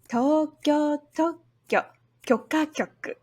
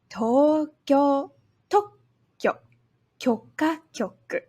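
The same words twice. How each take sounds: First: The phrase is said faster. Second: The phrase is said slowly.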